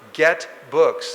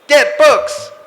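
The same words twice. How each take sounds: First: It is said calmly in an ordinary voice. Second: It is barked out loudly and sharply.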